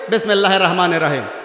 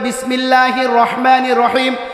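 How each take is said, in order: First: It is rushed and said carelessly. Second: It is said slowly and carefully. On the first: The speaker calls it wrong. "বিসমিল্লাটাও আপনি সুন্দর করে বলতে পারেন না" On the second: The speaker calls it right. "সুন্দর করে বলতে হবে"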